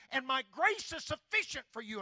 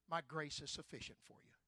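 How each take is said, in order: First: Grace hit high and loud; proclaimed. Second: Said in the usual way. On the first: Shown as a demonstration. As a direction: shout grace is sufficient to the hall.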